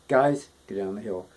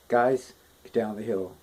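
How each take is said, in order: Both takes have the same delivery.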